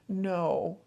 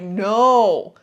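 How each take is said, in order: First: The word is said in a calm, neutral way. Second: The word is said in a strong, firm way. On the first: "if you say it with that neutral way" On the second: "trying it firmly, saying it firmly"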